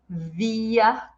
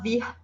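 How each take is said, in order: First: The final r is said like an a vowel. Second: The final r is said as a consonant. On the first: The speaker calls it right. "mas sim via" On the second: The speaker calls it wrong. "A gente não fala vir"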